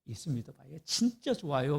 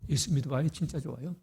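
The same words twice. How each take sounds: First: It is said cheerfully, with a smile. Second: It is said glumly, without a smile. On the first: The speaker calls it right. "이런 말을 할 때는 웃으면서" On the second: The speaker calls it wrong. "이렇게 하지 마세요"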